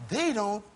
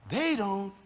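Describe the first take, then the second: No difference in how they are said.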